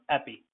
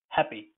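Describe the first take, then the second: First: The word begins without any H sound. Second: The word begins with an audible H sound. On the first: The speaker calls it wrong. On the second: The speaker calls it right. "You have to speak the H"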